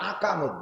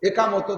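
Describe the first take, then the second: First: The word begins with an 'a' vowel sound. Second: The word begins with an 'e' vowel sound. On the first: The speaker calls it wrong. "আকামত দেয়। আকামত মানে হলো আকাম করা।" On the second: The speaker calls it right. "একামত একামত একামত দেয় না"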